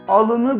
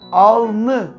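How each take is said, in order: First: The word keeps the middle vowel, three syllables. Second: The middle vowel is dropped, two syllables. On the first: The speaker calls it wrong. "Alını demeyiz değil mi?" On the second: The speaker calls it right. "Alnı şeklinde söyleniyor"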